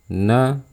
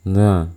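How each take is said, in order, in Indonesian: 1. Tidak ada napas yang terdengar bersama suku katanya. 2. Napas yang terdengar keluar bersama suku katanya. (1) "tidak boleh ada terdengar suara aliran nafas. Kayak gini" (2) "teman-teman bisa mendengar ada suara nafas yang keluar"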